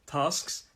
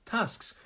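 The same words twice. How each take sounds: First: TASKS as "tahsks"; southern long "ah". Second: TASKS higher, with short "a" as in cat; northern short "a". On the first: Teacher contrasts both accents, southern long-"ah" TASKS. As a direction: say TASKS with the long open vowel. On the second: Teacher contrasts both accents, northern short-"a" TASKS. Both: Shown as a demonstration. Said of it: "Both are fine".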